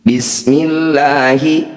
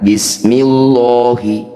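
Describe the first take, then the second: First: The l in Allah sounds thin and light. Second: The l in Allah sounds heavy and full. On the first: The speaker calls it right. "disebut lafaz Allah tarqiq" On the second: The speaker calls it wrong. "Jangan dibaca"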